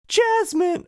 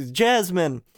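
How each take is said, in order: First: Missed impression in very high falsetto; squeaky, failed attempt at a hero's voice; Aladdin. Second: Second try at a hero's call, moderately raised; higher-pitched heroic impression, short of falsetto; Aladdin. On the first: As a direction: call the name way up high. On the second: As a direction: call the name ardently, falling at the end. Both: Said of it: "in Aladdin voice goes".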